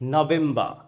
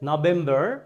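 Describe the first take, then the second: First: It is said in a British accent. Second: It is said in an American accent. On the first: "ব্রিটিশরা বলছে" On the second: "আমেরিকানরা বলছে"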